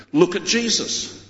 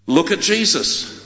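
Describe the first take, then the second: No difference in how they are said.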